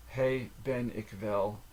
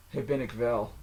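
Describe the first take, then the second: First: Slow, with each word set apart; drawn-out teaching enunciation; slow careful repeat. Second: Said in the usual way. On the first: Shown as a demonstration. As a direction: say it word by word for a learner. Phrase repeated slowly, word by word.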